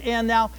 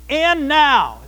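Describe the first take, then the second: First: Said in the usual way. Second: Strong stress on both words of "and now"; emphatic. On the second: Shown as a demonstration. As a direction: hit "and now" hard, as a bold announcement. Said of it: "very emphatic".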